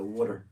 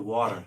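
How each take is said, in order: First: Water is said like 'wudder' in a Philadelphia accent. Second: Water is said with a standard American pronunciation. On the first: "W U D D E R. That's how we say it in Philly" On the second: "Not not the water"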